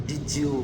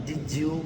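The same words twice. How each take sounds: The two takes are said the same way.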